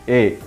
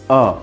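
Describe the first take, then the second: First: It is said as the full letter name 'ay'. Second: It is said as a short weak 'uh'. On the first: It names the letter of the alphabet. "As a letter, we have to pronounce it A" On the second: It is used as the article before a noun. "as an article, we have to pronounce it A"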